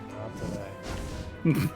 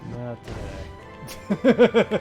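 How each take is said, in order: First: It is said with little energy. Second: It is said with more energy.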